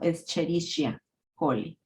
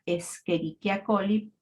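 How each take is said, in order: First: The 'ch' is said as a ch sound. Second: The 'ch' is said as a k sound. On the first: "se escribe como Escherichia coli" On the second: "se pronuncia Escherichia coli"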